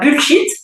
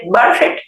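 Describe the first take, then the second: First: It is said with a French accent. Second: It is said with an English accent.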